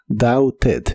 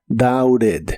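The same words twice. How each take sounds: First: The middle consonant is a clear T sound. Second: The middle consonant is a quick R-like tap. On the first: This is the standard, careful pronunciation. "La pronunciación oficial es doubted" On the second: This is how it is commonly said in casual speech. "es muy común pronunciar la T de este verbo como R"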